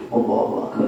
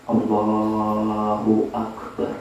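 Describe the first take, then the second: First: "Allahu Akbar" rushed and half-swallowed with a laugh; hurried, mumbled "Allahu Akbar" through a laugh; rushed careless recitation. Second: "Allahu Akbar" drawn out very slowly and low; slow, deliberate "Allahu Akbar", each syllable held; careful slow recitation. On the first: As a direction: toss off "Allahu Akbar" in a quick, slurred mumble. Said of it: "sudah di high". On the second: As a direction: stretch every syllable of "Allahu Akbar" with care. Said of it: "kita harus hati-hati". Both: Shown as a demonstration.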